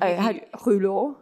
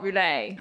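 First: The name ends with an 'oh' vowel sound. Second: The name ends with an 'ay' vowel sound. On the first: The speaker calls it right. "I will correct you on your pronunciation" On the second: The speaker calls it wrong. "Not roulet"

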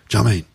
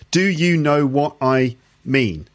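First: The whole phrase is squeezed into two syllables. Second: All six words are pronounced fully and separately. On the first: "in just two syllables" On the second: "Six words"

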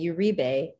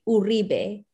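First: The name is said the English way, R unrolled. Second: The name is said the Spanish way, R rolled. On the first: This is a mixed-culture everyday version. "oftentimes I'll say Uribe" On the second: This is how it is said in Latin culture. "in Latin culture, they would say Uribe"

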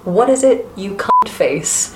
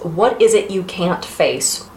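First: It is said in an English accent. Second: It is said without an English accent.

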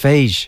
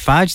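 First: The word has a long vowel like sage. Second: The word has a short vowel like badge. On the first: The speaker calls it right. "I think it's phage, like sage" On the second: The speaker calls it wrong. "I don't think you pronounce it fadge"

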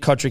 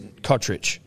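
First: The name ends with a 'k' sound. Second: The name ends with a 'ch' sound. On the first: The speaker calls it wrong. "we were saying them wrong" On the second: The speaker calls it right. "Nick Kotrick is Kotrich"

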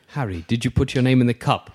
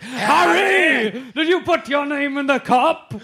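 First: It is said quietly and calmly. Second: It is said loudly and angrily.

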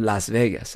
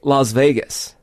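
First: The name is said with English-style vowels. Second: The name is said with Spanish-style vowels. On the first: "instead of Las Vegas" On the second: "I say Las Vegas"

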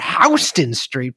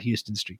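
First: Houston is pronounced the New York way. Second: Houston is pronounced differently from the New York way. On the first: This is how New Yorkers say the name. "as the New Yorkers call it" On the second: This is how the name is properly said. "because that's actually how you pronounce it"

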